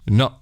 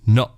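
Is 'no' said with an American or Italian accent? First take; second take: Italian; Italian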